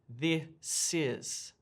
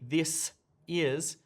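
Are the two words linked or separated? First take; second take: linked; separated. First: The two words are linked together. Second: The two words are said separately. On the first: The speaker calls it right. "we say this is. This is a link" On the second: The speaker calls it wrong. "we never say"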